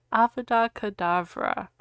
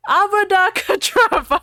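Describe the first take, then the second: First: Said in the usual way. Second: High, loud mock curse; hammy spell shout. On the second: Ebony cursing Voldemort, hammed-up. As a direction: hurl the curse like a melodrama heroine. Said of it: "I shouted".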